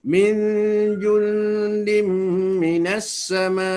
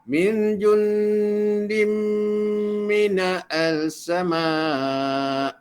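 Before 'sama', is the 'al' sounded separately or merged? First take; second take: merged; separate. First: The 'l' merges into a doubled 's' sound. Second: A separate 'al' is sounded before 'sama'. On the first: The speaker calls it right. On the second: The speaker calls it wrong. "Itu kaedah yang salah"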